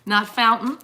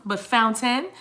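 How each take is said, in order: First: "Fountain" with the T swallowed; "Fountain" sloppy, dropped T; wrong pronunciation. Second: "Fountain" with a clear T; "Fountain" careful, T pronounced; correct pronunciation. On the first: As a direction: say "Fountain" as fown-in with no T. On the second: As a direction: say "Fountain" as fown-tin, T sounded. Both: Shown as a demonstration. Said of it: "Pronounce the T's".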